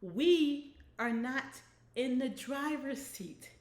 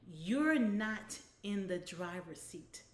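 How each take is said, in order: First: Louder, slow and spaced out; emphatic repeat. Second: Slow, with YOU'RE stretched out; firm first statement. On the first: Real, not acted. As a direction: drive it home for the hard of hearing. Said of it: "repeat that for those who may be hard of hearing". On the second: A narrator's reading. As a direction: read it firmly, leaning on "You're". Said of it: "let me repeat that".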